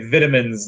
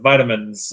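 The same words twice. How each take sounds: First: It is said with a British pronunciation. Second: It is said with an American pronunciation. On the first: This is how the other person says it. "the way you say vitamins" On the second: This is the usual local way. "instead of vitamins"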